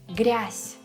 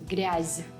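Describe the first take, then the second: First: The final consonant is voiceless. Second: The final consonant is voiced. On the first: The speaker calls it right. "it will turn into its soft, voiceless counterpart" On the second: The speaker calls it wrong.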